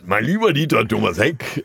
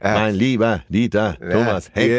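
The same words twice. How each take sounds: First: It is said in a plain, normal voice. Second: It is said in an imitated, put-on voice.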